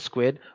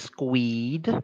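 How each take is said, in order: First: The vowel is a short 'i' sound. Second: The vowel is a long 'ee' sound. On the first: The speaker calls it right. "but it's squid" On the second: The speaker calls it wrong. "some people might say squeed"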